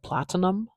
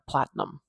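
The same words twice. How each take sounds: First: The middle vowel is a full clear vowel. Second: The middle vowel is reduced and run together. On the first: "I have heard some people say this I, like platinum" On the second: "me, I, I stick it together"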